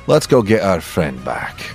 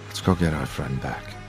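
First: It is said with swaggering pirate bravado. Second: It is said plainly, without pirate swagger.

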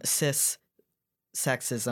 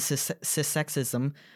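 First: The word is said slowly and deliberately. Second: The word is said at a normal, quick pace.

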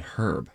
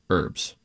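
First: The word starts with an h sound. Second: The word starts without an h sound. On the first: It refers to a person's name. "he's your friend Herb" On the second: It refers to a cooking ingredient. "you don't pronounce the H when you're referencing an ingredient in a dish"

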